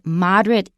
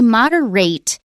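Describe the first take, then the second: First: The last syllable is pronounced like 'it'. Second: The last syllable is pronounced like 'ate'. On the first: It is used as an adjective. The speaker calls it right. "Don't say ate" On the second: It is used as a verb. The speaker calls it wrong. "it is a word, but it's a verb"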